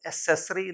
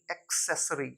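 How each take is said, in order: First: एक्सेसरी said "e-SESS-ree", K dropped; only an S after the first vowel of एक्सेसरी; wrong pronunciation. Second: एक्सेसरी said "ek-SESS-ree"; correct pronunciation. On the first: (एक्सेसरी में क गायब, "असेसरी") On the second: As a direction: clear K-S cluster in एक्सेसरी. (एक्सेसरी में "क्स" साफ़) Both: Shown as a demonstration. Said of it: "एक्सेसरी नहीं".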